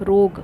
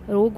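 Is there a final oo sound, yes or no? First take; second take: no; no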